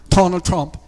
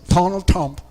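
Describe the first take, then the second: No difference in how they are said.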